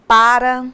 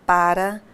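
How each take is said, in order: First: Para said louder, stressed; para, the first take, punched; first of a pair. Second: Para, the second take, dropped and rising; second of a pair. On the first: (primeiro "para", mais forte) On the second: (segundo "para", mais grave e subindo) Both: Shown as a demonstration. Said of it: "os pares de palavras".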